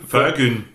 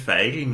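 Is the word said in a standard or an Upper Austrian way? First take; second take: Upper Austrian; standard. First: The word is said in an Upper Austrian way. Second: The word is said in a standard way. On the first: The speaker calls it right. "sondern ist mehr so ein Fögeln" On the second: The speaker calls it wrong. "dass man es ja nicht Feigeln nennt"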